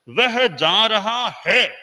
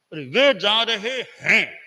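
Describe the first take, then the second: First: वह जा रहा है slow and loud, no nasal; without nasal. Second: हैं with a clear nasal ending, slow. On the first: Teacher demonstrating the singular without anusvara. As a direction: spell out रहा है slowly, no nasal. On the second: Teacher demonstrating the plural with anusvara. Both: Shown as a demonstration. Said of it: "तो बहुवचन है".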